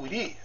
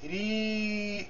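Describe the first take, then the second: First: The vowel is short and clipped. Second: The vowel is held and lengthened. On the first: The speaker calls it wrong. "em vez de ser o ri, simples" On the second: The speaker calls it right. "vai ser ri longo"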